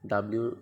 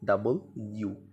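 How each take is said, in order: First: The letter name is squeezed into one blended word. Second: The letter name is said as two separate parts. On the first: The speaker calls it wrong. "ডাব্লিউ বলতাম" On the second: The speaker calls it right. "এটা হবে ডাবল ইউ"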